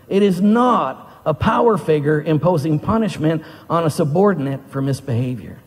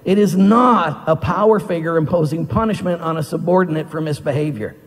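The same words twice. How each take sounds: First: It is read slowly. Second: It is read fast.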